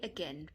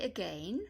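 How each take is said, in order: First: The stressed vowel is an 'eh' sound. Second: The stressed vowel is not an 'eh' sound. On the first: The speaker calls it right. "you can just say again, perfectly fine" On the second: The speaker calls it wrong. "Don't say again"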